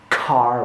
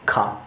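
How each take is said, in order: First: The r sound is clearly pronounced. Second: The r sound is left silent. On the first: This is the American way. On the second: This is not the American way. "rather than ka"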